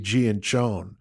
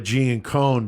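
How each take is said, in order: First: The double C is sounded as ch. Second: The double C is sounded as a hard k. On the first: This follows standard Italian pronunciation rules. "it really should be Gianchone" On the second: This is how the family actually says it. "she goes by Giancone"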